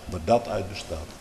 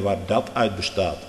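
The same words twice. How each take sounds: First: Softer repeat, stress on "dat"; quiet echo. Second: Said in the usual way. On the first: Shown as a demonstration. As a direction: drop the voice on "dat". (zachte herhaling)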